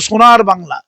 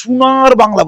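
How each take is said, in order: First: Said in the usual way. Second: Imitating "সোনার" said as "শুনার", slow and careful; mock the outsider's "সোনার" with a "শু" sound, slowly; mock non-Bengali pronunciation. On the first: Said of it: "বাংলা উচ্চারণটা ভালো করতে পারেনি". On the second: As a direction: mockingly say "সোনার বাংলা" the way a non-Bengali leader mangles it, "শুনার বাংলা". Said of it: "উচ্চারণ ঠিক মতো করতে পারে".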